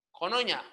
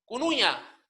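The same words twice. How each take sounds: First: Conoña with o sounds; spoken form. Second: Cunuña with clear u sounds; written form. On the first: Teacher shows conoña said with o. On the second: Teacher reads the spelled word Cunuña, both u. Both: Shown as a demonstration.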